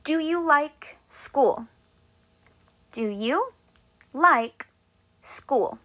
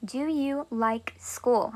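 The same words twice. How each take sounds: First: Slow, drawn-out question; teacher modelling a question; slow model question. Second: Very slow, softer model question; repeating the question softly. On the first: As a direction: ask it slowly and clearly. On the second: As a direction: ask it gently and slowly. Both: Shown as a demonstration. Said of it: "Let's say I wanna ask you a question".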